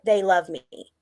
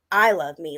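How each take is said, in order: First: THEY stressed, as the crowd's love. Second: I stressed, as self-love. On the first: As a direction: lean on THEY, then fall away. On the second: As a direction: lean on I, then let the rest drop. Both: Real, not acted. Contrasts crowd's love with her own.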